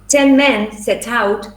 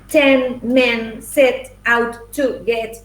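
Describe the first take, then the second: First: It is said with an English-sounding pronunciation. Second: It is said with a Spanish-sounding pronunciation. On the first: The speaker calls it right. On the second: The speaker calls it wrong.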